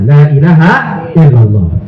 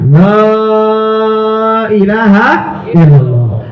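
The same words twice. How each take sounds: First: The first syllable 'la' is kept short. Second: The first syllable 'la' is drawn out long.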